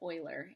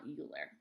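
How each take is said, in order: First: The name begins with an 'oy' sound. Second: The name begins with a 'you' sound. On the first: The speaker calls it right. "remember to pronounce it Euler" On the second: The speaker calls it wrong. "and not Euler"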